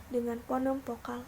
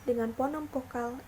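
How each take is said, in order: Both takes have the same delivery.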